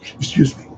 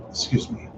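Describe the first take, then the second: First: Said in the usual way. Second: Breathless, barely voiced; winded whisper after exertion; out of breath. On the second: Real, not acted. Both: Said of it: "Sometimes I'm out of breath".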